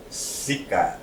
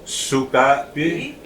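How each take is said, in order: First: "Sikapi" with "si" first and a falling end; inflection for dirty. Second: "Sukapi" slowly, with "soo" first and a rising end; inflection for good. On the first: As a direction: start "Sikapi" on an ee sound, dropping lower. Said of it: "means dirty". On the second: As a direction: draw out "Sukapi", starting on an oo sound. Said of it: "actually, it would be". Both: Shown as a demonstration.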